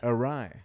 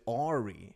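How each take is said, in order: First: The word ends with an eye sound. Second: The word ends with an ee sound. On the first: This is the standard pronunciation. The speaker calls it right. "Look how it's spelled" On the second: This is a childhood mispronunciation. The speaker calls it wrong. "for the first eleven years of my life, I'd pronounce it Ari"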